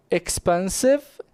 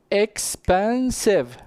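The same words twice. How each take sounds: First: Said in the usual way. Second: "expensive" slowly in three parts, ex-pen-sive; slow, separated "expensive", as if counting its syllables. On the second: Shown as a demonstration. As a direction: sound out each syllable of "expensive". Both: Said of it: "We have three syllables".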